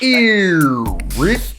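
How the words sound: The vowel is drawn out, deep in the throat. The speaker calls it right. "you're going ... like this"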